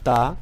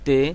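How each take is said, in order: First: It is said in the Arabic style. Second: It is said in the Urdu style. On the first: The speaker calls it right. "আপনি লক্ষ্য করুন আমি কেমনভাবে উচ্চারণ করছি।" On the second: The speaker calls it wrong. "আসলে এই উচ্চারণটি পুরোপুরি ভুল।"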